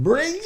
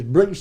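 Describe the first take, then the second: First: Briggs in a very high squeak. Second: Said in the usual way. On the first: Retold or imitated. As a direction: pitch Briggs way up. Name said again, squeaked.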